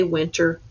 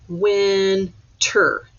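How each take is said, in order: First: Said in the usual way. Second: "winter" split slowly into win, ter; syllable by syllable. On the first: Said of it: "when I say winter". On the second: Shown as a demonstration. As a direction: count out "winter" as two separate beats. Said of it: "I hear two syllables".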